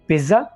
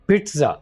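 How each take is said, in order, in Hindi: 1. बीच का व्यंजन एक voiced 'dz' ध्वनि है। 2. बीच का व्यंजन एक voiceless 'ts' ध्वनि है। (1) "इसको पिज़्ज़ा नहीं बोलना" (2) "बल्कि पिट्ज़ा"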